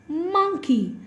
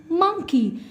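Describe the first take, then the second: No difference in how they are said.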